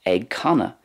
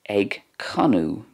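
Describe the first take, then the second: First: The word ends in an 'a' sound. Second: The word ends in an 'oo' sound. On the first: "It's pronounced ag canna in Munster and in Connacht" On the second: "in Ulster, it's more like ag canu"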